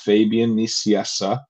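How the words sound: The name is said with an English pronunciation. "in English it's"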